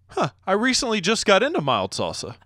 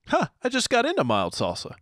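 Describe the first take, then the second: First: It is said in the speaker's normal voice. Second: It is said in a higher, imitating voice.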